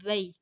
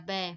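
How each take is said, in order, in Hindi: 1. अंतिम स्वर मारूफ़ तरीके से बोला जाता है। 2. अंतिम स्वर मजहूल तरीके से बोला जाता है। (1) "मारूफ तरीका है" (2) "मजहूल तरीका है"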